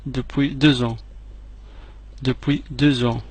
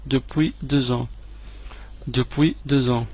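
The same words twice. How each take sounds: The two takes are said the same way.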